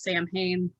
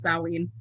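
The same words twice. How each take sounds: First: The word is said the way it is spelled. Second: The word is said differently from its spelling. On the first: The speaker calls it wrong. "That's not the correct correct pronunciation" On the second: The speaker calls it right. "It's Samhain"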